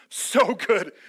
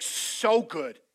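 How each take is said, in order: First: Loud, upbeat "So good!" at a high five; excited "so good". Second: Enthusiastic. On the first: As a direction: cheer it to a friend. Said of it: "high five". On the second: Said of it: "the word Jesus chose". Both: Retold or imitated.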